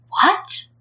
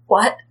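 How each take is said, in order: First: Breathless high gasp of a question; like the floor dropped out from under him; stunned disbelief. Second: Said in the usual way. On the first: Acted. Clan leader staring at the couple, asks in breathless high disbelief.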